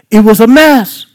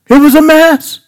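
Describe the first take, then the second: First: Said in the usual way. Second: Emphatic repeat. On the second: Shown as a demonstration. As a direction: say it again, pitched up for emphasis.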